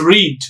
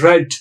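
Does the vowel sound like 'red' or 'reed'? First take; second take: reed; red. First: The vowel is long, as in 'reed'. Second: The vowel is short, as in 'red'. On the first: The action happens now or habitually. "when it is in the present form" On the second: The action happened in the past. "When the same word is used as past form"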